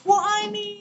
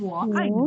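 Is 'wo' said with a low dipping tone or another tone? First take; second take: another tone; low dipping. First: Wo is said without the low dipping tone. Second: Wo is said with a low dipping tone. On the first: The speaker calls it wrong. "Jadi bukan" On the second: The speaker calls it right. "Bukan nada yang lain ya, tapi"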